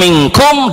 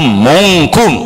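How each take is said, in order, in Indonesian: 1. Vokal pertama adalah bunyi 'i'. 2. Vokal pertama adalah bunyi 'u'.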